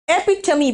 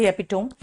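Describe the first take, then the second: First: एपिटमी said e-pi-ta-mi, four syllables ending in मी; correct pronunciation. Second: एपिटोम said like tome, three syllables ending in टोम; the wrong version एपिटोम, rhyming with home; common mispronunciation. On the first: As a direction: say एपिटमी with the final मी sounded, not टोम. (एपिटमी – आखिर में मी बोलो) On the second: (गलत उच्चारण: एपिटोम) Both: Shown as a demonstration. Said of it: "कई लोग एपिटोम बोलते हैं".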